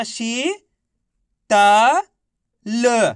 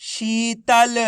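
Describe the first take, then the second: First: शी, त, ल sounded separately with long gaps; syllable by syllable. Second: शीतल as one word, long ī; syllables joined. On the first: Teacher spelling out word for class, syllable by syllable. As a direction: say शी drawn out, then त, then ल, each alone. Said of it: "एक ही अक्षर का उच्चारण करना है". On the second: Teacher giving the joined-up answer to class, blended. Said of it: "तो बताइए मिलके क्या बनेगा". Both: Shown as a demonstration.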